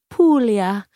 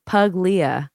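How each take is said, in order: First: "Puglia" as POOL-ya, g silent; "Puglia" said Italian-style with a long oo and silent g; correct Italian pronunciation. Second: "Puglia" read as spelt, with a hard g; "Puglia" mispronounced letter by letter as pug-lia; spelling pronunciation. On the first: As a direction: roll out "Puglia" slowly as POOOL-ya. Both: Shown as a demonstration. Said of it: "if you're gonna pronounce it correctly".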